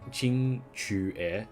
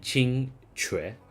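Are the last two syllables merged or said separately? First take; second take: separate; merged. First: The last two syllables are said separately. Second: The last two syllables are merged quickly together. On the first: "that syllable that I just pronounced chu is not in the English language" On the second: "go like chu and then e really quickly"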